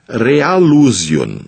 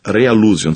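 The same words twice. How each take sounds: First: "Realusion" spelt out very slowly, syllable by syllable; slow dictation. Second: Said in the usual way. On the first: Shown as a demonstration. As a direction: drag out "Realusion" so they can write it down. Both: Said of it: "aí você escreve".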